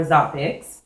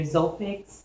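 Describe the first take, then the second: First: "Zopix" with an open ah, ZAH-picks; first syllable of "Zopix" like ah; open A pronunciation. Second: "Zopix" with a long O, like Zoe; first syllable of "Zopix" rhymes with go; long O pronunciation. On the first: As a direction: say "Zopix" to rhyme with topics. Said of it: "it was either Zopix or Zopix". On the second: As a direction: say "Zopix" as ZOH-picks. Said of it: "two names to choose from". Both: Shown as a demonstration.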